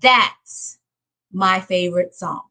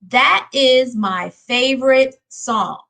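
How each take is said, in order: First: The two words are joined into one syllable. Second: The two words are said separately in full. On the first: The speaker calls it right. "we're going to put them together" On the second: The speaker calls it wrong. "Instead of saying that is"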